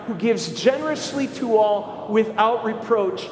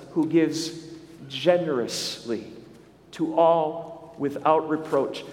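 First: Said in the usual way. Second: Slow, with pauses, leaning on generously; savoring each phrase. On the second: Shown as a demonstration. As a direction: linger on generously, then the rest slowly. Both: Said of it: "And I love how it says".

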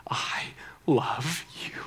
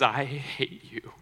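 First: Slow, breath-only "I love you"; retold father's hushed, deliberate reply; whispered declaration. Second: Slow, deliberate retold "I hate you"; measured, weighty imitation of a hurt boy; retold hatred. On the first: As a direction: answer hatred with a slow, intense whisper. Father answers the boy's hatred. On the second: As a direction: draw out the boy's rejection without raising the voice. Boy hits friend, declares hatred.

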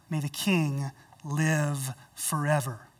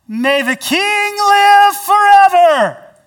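First: Low, soft, slow respectful blessing; bow your voice in humble honor; humble and honorable. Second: High, loud, slow proclamation; called out loudly. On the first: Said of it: "humbly says, and with honor". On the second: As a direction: call up from the pit with full voice. Daniel calling from den. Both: Acted.

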